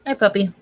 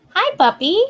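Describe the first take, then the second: First: Said in the usual way. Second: "Hi, puppy" cooed high with a rise; high cooing. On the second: Real, not acted. Same greeting, high coo.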